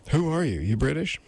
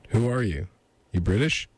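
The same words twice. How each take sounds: First: Higher-pitched lady character; lady's voice. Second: Said in the usual way. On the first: Acted. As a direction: ask it in a put-on higher female voice. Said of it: "that's the lady saying". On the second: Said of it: "no, that's the lady saying".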